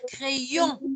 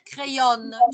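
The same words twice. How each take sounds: First: It ends in a nasal vowel without n. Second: An n consonant is heard at the end. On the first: The speaker calls it right. "Tu dois dire crayon" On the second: The speaker calls it wrong. "Tu ne dois pas dire crayon"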